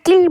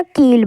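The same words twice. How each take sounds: First: किल with a quick short i; short vowel. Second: कील with a long ee; long vowel. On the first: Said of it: "जल्दी हम किल बोल रहे हैं". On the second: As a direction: hold the ee in कील. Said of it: "देर तक आवाज़ दे रहे हैं". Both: Shown as a demonstration.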